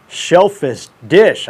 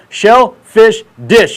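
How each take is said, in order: First: Said in the usual way. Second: Slow, loud, higher shellfish dish; over-enunciated at half speed. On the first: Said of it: "I can't even say it". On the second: Shown as a demonstration. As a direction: spell it out slowly, word by word. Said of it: "You gotta say it slow".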